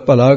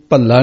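First: ਭਲਾ with a short, single L. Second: ਭੱਲਾ with a held, doubled L. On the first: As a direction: keep the L in ਭਲਾ undoubled. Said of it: "ਭਲਾ ਕਹਿਣਾ". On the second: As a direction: lengthen the L in ਭੱਲਾ. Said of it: "ਨਹੀਂ ਕਹਿਣਾ". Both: Shown as a demonstration.

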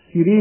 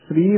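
First: ਸ੍ਰੀ split as "si-ree"; wrong pronunciation. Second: ਸ੍ਰੀ as one syllable "sree"; correct pronunciation. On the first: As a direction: put a short i after the s of ਸ੍ਰੀ. (ਸ੍ਰੀ ਨੂੰ 'ਸਿਰੀ' ਵਾਂਗ ਬੋਲੋ) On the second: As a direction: run s straight into r in ਸ੍ਰੀ. (ਸ੍ਰੀ ਇੱਕੋ ਸਾਹੇ, 'ਸ' ਨਾਲ 'ਰ' ਜੋੜ ਕੇ) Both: Shown as a demonstration. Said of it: "ਸ੍ਰੀ ਨਹੀਂ ਕਰਨਾ ਹੈ".

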